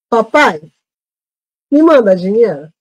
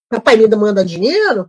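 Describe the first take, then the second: First: There is a short pause after Papai. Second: It runs on with no pause after Papai.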